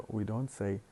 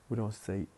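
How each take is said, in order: No difference in how they are said.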